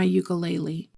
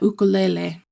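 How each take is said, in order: First: It is said with the everyday anglicized pronunciation. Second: It is said with the traditional original pronunciation. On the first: The speaker calls it wrong. "that's going to upset my friend Kelly" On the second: The speaker calls it right. "They like it when people pronounce it correctly"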